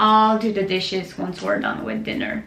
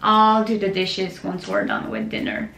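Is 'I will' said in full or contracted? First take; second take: contracted; contracted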